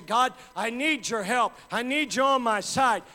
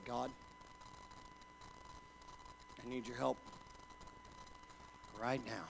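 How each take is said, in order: First: Loud, higher cry for help; loud plea. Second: Softer, lower, barely voiced prayer; quiet plea. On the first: Pretend. A believer in trouble crying out loud to God. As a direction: call out to God with everything. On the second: Alone in a bean field, praying quietly to God for help. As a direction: pray it softly, alone in the field.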